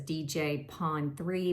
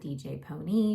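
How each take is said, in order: First: The name ends with 'pawn three' as two words. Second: The name ends with 'pony' as one word. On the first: The speaker calls it wrong. "I know it says D J Pawn three" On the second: The speaker calls it right. "they pronounce it D J Pony"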